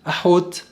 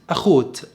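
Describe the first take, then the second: First: أحوت with a pharyngeal h; smooth ح in the middle of أحوت. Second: أخوت with a rasping kh; scraped خ in the middle of أخوت. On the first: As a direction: say أحوت with the Arabic throat h. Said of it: "السفرديم يقولوا أحوت". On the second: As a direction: say أخوت with kh for the throat h. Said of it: "الأشكناز يقولوا أخوت". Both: Shown as a demonstration.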